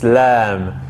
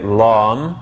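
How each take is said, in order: First: The vowel is a light, fronted 'a'. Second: The vowel is a dark, heavy 'ah'. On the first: The speaker calls it right. "It's Lam" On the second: The speaker calls it wrong. "We don't say Lam"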